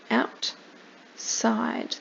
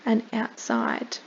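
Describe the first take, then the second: First: Outside breathed in a whisper. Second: Said in the usual way. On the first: Shown as a demonstration. Teacher repeats outside to the child, whispering. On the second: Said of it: "bean and stalk".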